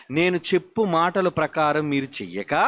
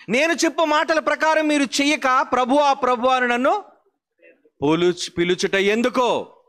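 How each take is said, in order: First: Said in the usual way. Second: A preacher booming the verse at the congregation; forceful preaching. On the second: Shown as a demonstration. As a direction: hurl Christ's rebuke at the congregation. Same verse repeated forcefully.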